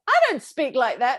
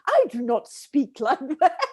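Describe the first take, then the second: First: It is said in a casual, natural accent. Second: It is said in a careful, refined accent.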